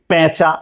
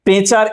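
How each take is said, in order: First: পেঁচা said "pæ-cha", open first vowel; spoken æ sound. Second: পেঁচার said with a pure "e", pe-char; written e sound. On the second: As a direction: keep a close "e" in পেঁচার. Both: Shown as a demonstration. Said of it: "আমরা এভাবেই উচ্চারণটা করি".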